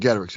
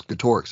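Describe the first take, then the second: First: Getorix as GET-er-ix; first-syllable stress. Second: Getorix as guh-TOR-ix; middle-syllable stress. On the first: Host jokingly rejecting this version, first-syllable stress. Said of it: "it wasn't Getorix". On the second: Host jokingly correcting the name, middle-syllable stress. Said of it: "it was Getorix that was with him". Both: Shown as a demonstration.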